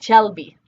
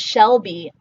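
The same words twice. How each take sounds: First: The name begins with a 'ch' sound. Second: The name begins with an 'sh' sound. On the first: This is how a Spanish speaker might say it. "I often get Shelby" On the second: This is how the name is meant to be said. "my name is Shelby"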